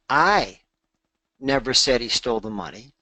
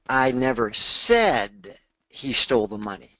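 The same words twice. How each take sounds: First: The word "I" carries the main stress. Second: The word "said" carries the main stress. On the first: Someone else said it. "that would imply that I didn't say it. Maybe Marie said it or someone else said it" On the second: It was implied but not actually said. "I might have implied it"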